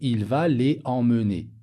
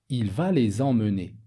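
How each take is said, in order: First: Les and emmener are said without a linking z. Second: A z sound links les to emmener. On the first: The speaker calls it wrong. "Je ne vais pas dire" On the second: The speaker calls it right. "La liaison est obligatoire entre le pronom et le verbe"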